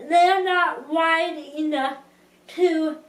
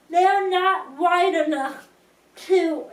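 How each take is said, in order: Both takes have the same delivery.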